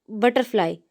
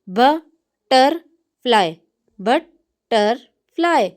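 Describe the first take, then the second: First: Said in the usual way. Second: butterfly drawn out very slowly, bat-ter-fly; slow syllables. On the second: Shown as a demonstration. Teacher splitting a word into syllables for the class. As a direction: stretch butterfly into three slow beats. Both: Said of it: "इसके अंदर तीन syllables हैं".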